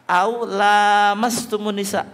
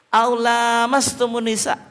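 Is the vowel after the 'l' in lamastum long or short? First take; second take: long; long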